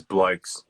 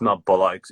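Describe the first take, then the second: First: "blokes" said slowly as one syllable; corrected pronunciation. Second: Mock mispronounced "blokes", shown as the wrong way; wrong pronunciation. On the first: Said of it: "it's not blokes". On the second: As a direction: say "blokes" the mistaken way, to be corrected. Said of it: "it's, it's blokes". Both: Shown as a demonstration.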